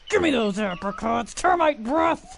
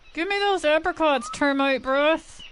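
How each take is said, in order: First: It is said with a dominant growl. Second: It is said plainly, without a growl.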